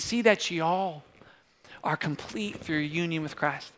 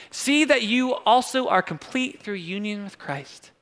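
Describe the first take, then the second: First: Light, slow Southern drawl; Southern accent. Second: Said in the usual way. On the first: Shown as a demonstration. Pastor rereads verse as written to y'all, light Southern accent. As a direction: ease into a mild Southern y'all. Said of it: "Just kept going in a Southern accent there".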